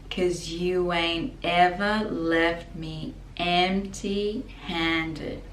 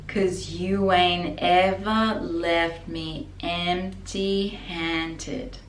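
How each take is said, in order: Both takes have the same delivery.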